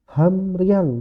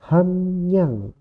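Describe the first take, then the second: First: An r sound follows the m. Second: An n sound follows the m. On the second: "R-nya berubah jadi N"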